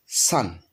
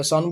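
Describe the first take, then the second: First: সান with an open "a", low and falling; correct pronunciation. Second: সন with a rounded "o", like "shon"; common pronunciation. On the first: Teacher modelling the correct form, সান with open "a", falling. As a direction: open the vowel in সান, like English "sun". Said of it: "সঠিক উচ্চারণটা হচ্ছে". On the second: Teacher quoting what we usually say, সন with rounded "o". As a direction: round the vowel in সন to an "aw". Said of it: "আমরা এটা সন বলি". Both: Shown as a demonstration.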